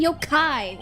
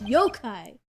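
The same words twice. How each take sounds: First: The stress is on the second syllable. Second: The stress is on the first syllable. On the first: The speaker calls it wrong. "Why do you keep saying yokai?" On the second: The speaker calls it right. "The emphasis is on the yo part"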